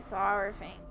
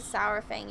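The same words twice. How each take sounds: First: The first syllable sounds closer to sar. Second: The first syllable sounds like the word sour. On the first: The speaker calls it right. "you say Sourfang" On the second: The speaker calls it wrong. "you don't say Sourfang"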